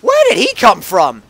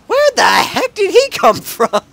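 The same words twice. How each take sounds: First: Said in the usual way. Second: Much higher, loud laughing surprise; startled disbelief. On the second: Real, not acted. Gamer shocked by a car suddenly appearing, high laughing disbelief. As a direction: yelp it out, caught off guard.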